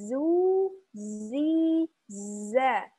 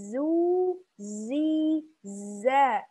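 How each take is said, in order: No difference in how they are said.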